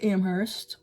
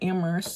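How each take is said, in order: First: The H sound at the start is pronounced. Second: The H sound at the start is silent.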